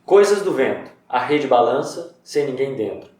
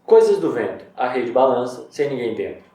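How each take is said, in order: First: Haiku reading. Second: Haiku reading again. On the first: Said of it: "ó". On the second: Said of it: "Não parece que o poema é rimado?". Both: Shown as a demonstration.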